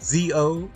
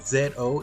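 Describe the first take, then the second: First: The letter is said the American way, zee. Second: The letter is said the non-American way, zed.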